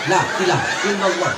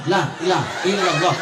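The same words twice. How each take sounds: First: Fast, clipped "La ilaha illallah" as lah ilai lalo; rushed zikir. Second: "La ilaha illallah" squashed into lahi lah ilalo; chuckling hurried chant; sloppy zikir. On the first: Mocking hasty worshippers, rushed zikir. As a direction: rattle it off quickly. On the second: Mocking careless worshippers, slurred zikir. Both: Shown as a demonstration. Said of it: "Macam mana zikir begini".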